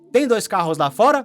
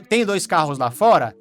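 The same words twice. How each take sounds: First: It has the tune of a question. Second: It has the tune of a statement.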